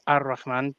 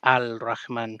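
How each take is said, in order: First: The article's l merges into the following r. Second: The article's l is sounded before the r. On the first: The speaker calls it right. "it should be pronounced Ar-Rahman" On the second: The speaker calls it wrong. "we'll probably be saying Al-Rahman"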